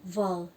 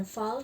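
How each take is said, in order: First: "val" begun with a voiced, buzzed v; thick English V. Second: First "val" said as fal, with a voiceless f; wrong thin V. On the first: Teacher correcting students after the wrong take, thick voiced V. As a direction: say "val" with a full, heavy v sound. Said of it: "Ini V dibaca tebal ya". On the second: Teacher showing students the mistake to avoid, V turned into F. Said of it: "bukan val tapi val". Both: Shown as a demonstration.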